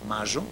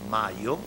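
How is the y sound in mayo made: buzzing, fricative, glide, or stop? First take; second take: buzzing; fricative. First: The y has a strong buzzing friction. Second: The y is a soft voiced fricative. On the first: "la variante reilada" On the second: "como fricativo sonoro normal"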